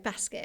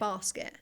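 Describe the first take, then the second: First: It is said in a Nottingham accent. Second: It is said in a local southern accent. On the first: The speaker's old accent shows through. "I still say basket" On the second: This is how people say it locally. "instead of"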